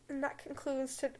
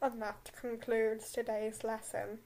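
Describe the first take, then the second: First: It is read in the reader's normal voice. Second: It is read in a deep Snape impression.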